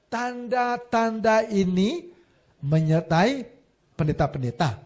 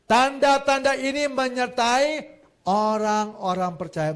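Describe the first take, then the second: First: Slow, stressing Tanda-tanda ini menyertai pendeta-pendeta; drawn out mock wrong reading ending on pendeta-pendeta; mock wrong version. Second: Slow, firm Tanda-tanda ini menyertai orang-orang percaya; correct version stressed. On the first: (versi salah yang diejek, pelan) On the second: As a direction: preach the right verse slowly, stressing Tanda-tanda. (versi benar, pelan dan tegas) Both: Shown as a demonstration. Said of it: "Enak aja".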